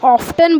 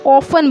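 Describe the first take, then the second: First: The t sound is pronounced. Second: The t sound is silent. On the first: "अगर टी का उच्चारण करें" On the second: "टी का उच्चारण नहीं करेंगे"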